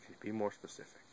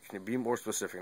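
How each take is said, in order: First: Much softer, sleepy mumble from bed; half asleep. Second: Said in the usual way. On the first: Retold or imitated. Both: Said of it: "I'm half asleep".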